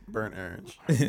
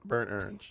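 First: It is said in a southern accent. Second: It is said in a plain accent.

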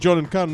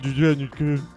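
First: The names are said in a plain accent. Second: The names are said with a French-sounding accent. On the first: The speaker calls it right. "That was meant to be John and Karen" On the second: The speaker calls it wrong. "not John and Karen. Went off French there"

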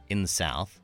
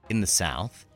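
No difference in how they are said.

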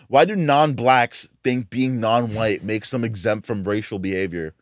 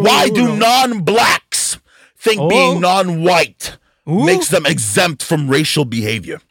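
First: It is read in the speaker's ordinary natural voice. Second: It is read in an exaggerated put-on character voice.

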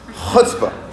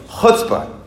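First: The word starts with a raspy sound from the throat. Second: The same.

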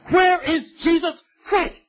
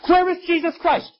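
First: It is said slowly and loudly. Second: It is said at a normal pace and loudness.

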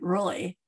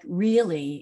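First: The L sound is swallowed in the throat. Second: The L sound is clear and fully pronounced.

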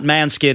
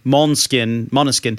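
First: The name is squeezed into two syllables. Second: The name is said with three full syllables. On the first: The speaker calls it wrong. "Not Manskin" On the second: The speaker calls it right. "it's Måneskin"

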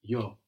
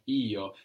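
First: It is said quickly and lightly. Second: It is said slowly with strong emphasis.

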